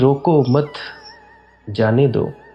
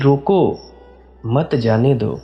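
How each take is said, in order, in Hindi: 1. विराम mat शब्द के बाद आता है। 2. विराम roko शब्द के बाद आता है। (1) "इनको रोको मत और जाने दो" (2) "इनको रोको और मत जाने दो"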